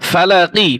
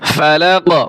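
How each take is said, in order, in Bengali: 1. শব্দটি হ্রস্ব ই স্বরধ্বনি দিয়ে শেষ হয়। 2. শব্দটি শুধু q ব্যঞ্জন দিয়ে শেষ হয়।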